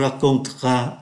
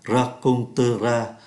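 First: The middle e vowel is dropped. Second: The middle e vowel is pronounced. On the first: "người ta phát âm nhanh" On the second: "Thay vì phát âm là raconteras"

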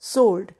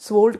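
First: No w sound follows the s. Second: A w sound follows the s. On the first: The speaker calls it right. "डब्ल्यू silent है, correct pronunciation is सोल्ड" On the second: The speaker calls it wrong. "स्वोल्ड कहने की गलती करते हैं"

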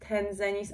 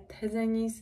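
First: An n sound comes before the z. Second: No n sound comes before the z. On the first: The speaker calls it wrong. "nie wiem skąd mi się wzięło, że to jest Tenzenis" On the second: The speaker calls it right. "a nie Tenzenis"

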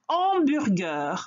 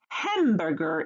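First: The initial h is silent. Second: The initial h is pronounced. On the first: "hamburger en français" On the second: "the h in hamburger in English"

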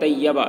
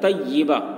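First: The vowel after the double y is 'a'. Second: The vowel after the double y is 'i'. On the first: The speaker calls it wrong. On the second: The speaker calls it right.

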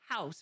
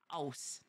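First: The word starts with an H sound. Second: The word starts without an H sound. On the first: "not house" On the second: "our fellow Jamaicans don't pronounce the H"

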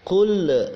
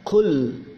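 First: The final l is released with a bounce. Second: The final l is held cleanly without bounce. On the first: The speaker calls it wrong. "jangan membaca Qul" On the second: The speaker calls it right. "harus dibaca jelas"

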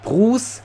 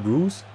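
First: The word is said in an exaggerated, odd way. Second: The word is said in a plain, normal way. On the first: "er sagt Bruce, so richtig behindert" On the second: "einfach normal Bruce"

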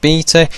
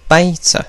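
First: It is said in a British accent. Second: It is said in an American accent.

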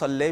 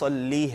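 First: The word ends with an 'ay' vowel. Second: The word ends with an 'ee' vowel. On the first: "अगर कोई इसको सल्ले भी पढ़ता है तो ये भी जायज़ है" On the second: "सही तलफ़्फ़ुज़ ... वो अल्लाहुम्मा सल्ली है"

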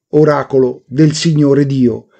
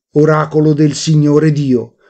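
Both takes have the same delivery.

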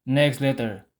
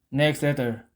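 Both takes have the same delivery.

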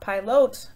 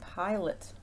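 First: The first vowel is a short i. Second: The first vowel is a long i. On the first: The speaker calls it wrong. "Not pilot, because there's a consonant at the end of that one" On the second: The speaker calls it right. "long I"

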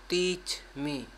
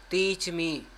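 The two takes are said the same way.

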